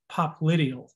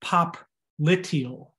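First: Said in the usual way. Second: POPLITEAL drawn out slowly in separate parts; pronunciation demo. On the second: Shown as a demonstration. Teacher showing students how you pronounce Popliteal, slowly broken up. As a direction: say Popliteal very slowly, pop... liteal, leaning on the I. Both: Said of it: "That's how you pronounce it".

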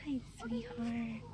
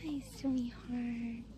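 First: Tender coo. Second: Slow, soft cooing greeting; slow gentle hello to a cow; tender coo. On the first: Cooing softly at cow. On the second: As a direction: croon it softly to the cow. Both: Real, not acted.

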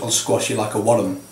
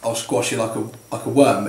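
First: Light imitated Scottish accent, worm stretched to two syllables like wor-lum. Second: Said in the usual way. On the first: Friend threatening the lad, lightly imitated Scottish accent. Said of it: "'cause it's Scottish, it goes". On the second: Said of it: "'cause it's Scottish".

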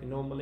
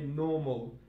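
First: "normal" with the R sounded; R pronounced. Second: "normal" said as "naw-mal"; R dropped. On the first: Teacher giving the normal English form, "normal" with its R. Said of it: "Like normal English say". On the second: Teacher showing learners Cockney British, "normal" without R. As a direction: leave the R out of "normal". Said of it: "but in Cockney British say". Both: Shown as a demonstration.

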